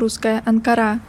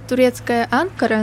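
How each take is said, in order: First: The stress is placed the Russian way. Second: The stress is placed the Turkish way. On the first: This is how Russian speakers say it. The speaker calls it wrong. "русская" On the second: This is how people in Turkey say it. The speaker calls it right. "турецкая"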